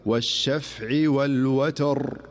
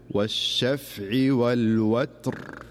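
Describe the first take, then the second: First: والوتر stopped with a vowel on the ت, slow; common mistake. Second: والوتر with a silent ت, recited slowly; correct stop. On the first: Teacher demonstrating the wrong stop on والوتر. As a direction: recite والوتر with the ت moved before the ر. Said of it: "فالبعض يقول". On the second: Teacher demonstrating the correct stop on والوتر. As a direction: stop on والوتر keeping the ت still. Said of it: "فيقول". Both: Shown as a demonstration.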